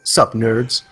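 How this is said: The voice falls at the end, like a statement.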